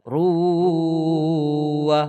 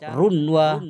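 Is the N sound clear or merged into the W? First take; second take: merged; clear. First: The N merges into the W, nasalized. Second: The N is clearly pronounced before the W. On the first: The speaker calls it right. "tetap masuk. Ruwah begitu" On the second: The speaker calls it wrong. "Tidak boleh dibaca runwa"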